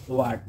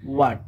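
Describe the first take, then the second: First: It begins with an audible h sound. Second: It begins without any h sound. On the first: The speaker calls it wrong. "প্রথমেই আমরা এটাকে বলি হোয়াট, but এটা আসল উচ্চারণ হবে ওয়াট" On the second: The speaker calls it right. "এখানে এইচ silent থাকবে"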